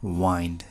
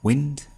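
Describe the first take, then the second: First: The vowel is a long 'eye' sound. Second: The vowel is a short 'i' sound. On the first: It means to twist or bend. "यसलाई नै वाइन्ड भन्यो भने बाङ्गो हुनु है" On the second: It means moving air. "विन्ड भनेको हावा है"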